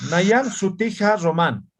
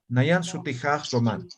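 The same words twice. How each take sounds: First: Slow Nayan Sutija Román with a clear cut between words; with a break. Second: Nayan Sutija Román run together smoothly with no break; smoothed. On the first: Teacher demonstrating a clipped Aymara phrase, slow with a break. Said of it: "uno que sabe hablar en Mara se va a dar de cuenta de que aquí hay un corte". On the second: Teacher demonstrating the smoothed Aymara phrase, flowing. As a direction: glide through Nayan Sutija Román, the ja softening the joins. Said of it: "Simplemente lo ha suavizado". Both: Shown as a demonstration.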